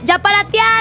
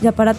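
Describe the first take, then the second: First: The voice is lively and emotionally varied. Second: The voice is flat and monotonous. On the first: The speaker calls it right. "Y como diría yo" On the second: The speaker calls it wrong. "Es como si yo te dijera"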